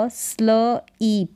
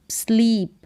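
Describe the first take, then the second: First: Slow स्ल ईप in two parts; ईप with long ee, apart from स्ल; sounded out. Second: Said in the usual way. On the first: Shown as a demonstration. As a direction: break it as स्ल, then ईप. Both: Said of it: "S L को पढ़ा स्ल".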